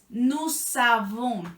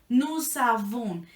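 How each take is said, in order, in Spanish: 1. La s de "nous" se une a "avons". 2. La s de "nous" se une a "avons".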